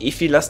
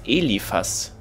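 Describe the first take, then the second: First: The second syllable is 'phi', the third 'las'. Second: The second syllable is 'li', the third 'phas'. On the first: The speaker calls it wrong. "Der heißt nicht Ephilas" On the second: The speaker calls it right. "der heißt Eliphas"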